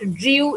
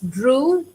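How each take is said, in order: First: The vowel is not a plain oo sound. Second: The vowel is a plain oo sound. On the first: The speaker calls it wrong. "It is not drew" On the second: The speaker calls it right. "it's drew"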